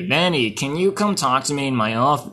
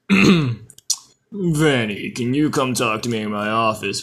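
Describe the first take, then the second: First: The voice is at its usual pitch. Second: The voice is made deep and low. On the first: The speaker calls it wrong. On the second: The speaker calls it right.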